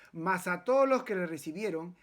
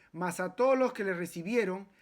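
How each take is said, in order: No difference in how they are said.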